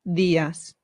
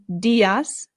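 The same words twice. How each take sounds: First: The D is soft, tongue behind the teeth. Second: The D is hard, as in English. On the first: The speaker calls it right. "it becomes días" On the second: The speaker calls it wrong. "So instead of saying días"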